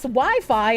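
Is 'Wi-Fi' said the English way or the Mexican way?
English. It is said with the English pronunciation.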